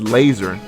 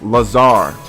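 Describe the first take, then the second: First: The name sounds like the English word laser. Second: The name sounds like Lazar, not laser. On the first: The speaker calls it wrong. "I said laser" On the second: The speaker calls it right. "but it's Lazar, right?"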